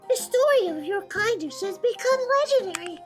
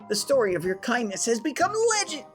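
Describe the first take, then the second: First: It is said in a put-on grand voice. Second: It is said in the speaker's natural voice.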